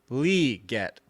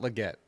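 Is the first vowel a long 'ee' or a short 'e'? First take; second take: long ee; short e. First: The first syllable has a long 'ee' vowel. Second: The first syllable has a short 'e' vowel. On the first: The speaker calls it right. "the heavy enunciation is on the Lee, the L E, but it's L E E" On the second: The speaker calls it wrong. "I've been saying it wrong. It's not Leggett"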